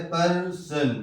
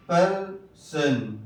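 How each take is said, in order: First: Said in the usual way. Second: پرسن slowed right down, per with a weak uh vowel; slow pronunciation. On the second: Shown as a demonstration. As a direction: stretch پرسن syllable by syllable. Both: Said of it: "ای سے زبر کی بھی آواز آتی ہے".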